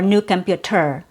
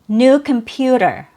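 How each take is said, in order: First: The t is a clear t sound. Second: The t is a quick d-like flap. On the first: The speaker calls it wrong. "instead of" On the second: The speaker calls it right. "we have a fast D sound"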